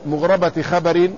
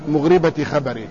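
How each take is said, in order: First: مغربة خبر as "mughrabati khabar", a after the ra; fatha, joined in idafa. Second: مغربة خبر as "mughribati khabar", i after the ra; kasra, joined in idafa. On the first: Teacher demonstrates the idafa reading, ra with fatha. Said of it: "مع الإضافة". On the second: Teacher demonstrates the other idafa reading, ra with kasra. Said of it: "كسر الراء وفتحها". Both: Shown as a demonstration.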